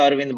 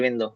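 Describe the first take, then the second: First: The name ends with a 'd' consonant. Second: The name ends with an 'o' vowel. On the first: This is the Hindi form of the name. "Hindi में बोलेंगे तो अरविंद बन जाएगा" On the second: This is the English form of the name. "English में बोलते हैं अरविंदो"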